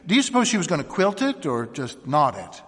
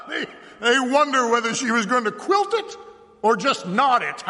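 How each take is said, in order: First: Said in the usual way. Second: High, loud, laughing mimicry; mocking, laughing. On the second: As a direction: laugh as you parrot the women's words. Sheriff mocks the women's question.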